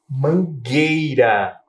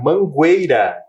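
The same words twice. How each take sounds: First: The U after the G is silent. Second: A U sound is heard after the G. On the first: The speaker calls it right. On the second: The speaker calls it wrong.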